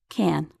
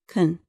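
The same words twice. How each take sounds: First: The vowel is full and clearly pronounced. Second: The vowel is weak and reduced. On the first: "In slow speech, can sounds like can" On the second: "In fast speech, it often sounds like can"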